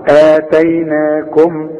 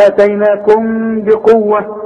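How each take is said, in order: First: Slow آتيناكم stopped on a closed-lip m; closed final meem. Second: Slow آتيناكم بقوة, the m held as a nasal hum; ikhfa with ghunna. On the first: Teacher showing a stop, closed meem ending آتيناكم. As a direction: shut the lips on the last m of آتيناكم. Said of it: "أمال إمتى أقفل شفايفي في الميم دي؟". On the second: Teacher warning against closed lips, humming ikhfa in آتيناكم بقوة. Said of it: "يحصل انفراد في الشفايف". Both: Shown as a demonstration.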